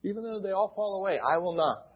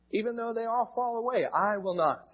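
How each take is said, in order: First: Quick, higher, quoting the bold vow; emphatic, retold. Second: Higher and quick, insisting hard; emphatic vow. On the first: Preacher quoting Peter's vow to the congregation, emphatic. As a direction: echo Peter's bold insistence. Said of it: "Despite Peter's emphatic". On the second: Acted. Peter to Jesus, vowing he'll stay loyal, emphatic. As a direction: swear you'll never fall away.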